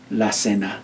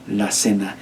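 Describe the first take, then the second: No difference in how they are said.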